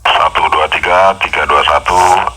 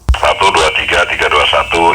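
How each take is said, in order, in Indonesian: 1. Suaranya terdengar lebih bass, lebih rendah, dan lebih pelan. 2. Suaranya terdengar lebih keras dengan frekuensi tinggi yang lebih cerah. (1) "agak ngebas tapi lebih rendah suaranya, lebih kecil suaranya" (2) "lebih kencang, mic high-nya lebih jalan"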